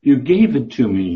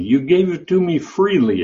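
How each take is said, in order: First: Said in the usual way. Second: "You gave it to me freely" lifted higher, leaning on "freely"; teaching emphasis, pitched up on "freely"; stress on freely. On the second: Shown as a demonstration. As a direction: raise the pitch and lean on "freely". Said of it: "It's didomi".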